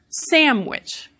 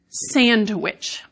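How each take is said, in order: First: The N sounds closer to an M. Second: The D is pronounced after the N. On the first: "the N is becoming more like the W" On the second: "which is actually not how I say that word most of the time"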